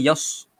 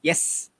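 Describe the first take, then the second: First: The syllable is said with a thick, heavy 's'. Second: The syllable is said with a thin, light 's'. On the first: The speaker calls it wrong. "Bukan yas" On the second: The speaker calls it right. "huruf sin ini nipis"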